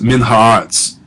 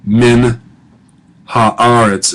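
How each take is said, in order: First: Min haaretz joined with no break, one accent on aretz; run together as one word. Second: Min and haaretz said apart with a long pause between; split into two words. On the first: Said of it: "It's one word". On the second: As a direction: pause after min, then haaretz on its own. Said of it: "so you wouldn't say". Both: Shown as a demonstration.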